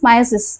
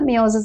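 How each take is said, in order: First: The first syllable sounds like 'my'. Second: The first syllable sounds like 'mee'. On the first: The speaker calls it right. "Actual pronunciation of മയോസിസ് is മയോസിസ്" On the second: The speaker calls it wrong. "ഞങ്ങളുടെ teachers ഞങ്ങളെ പഠിപ്പിച്ചിട്ടുള്ളത് മിയോസിസ് എന്നാണ്"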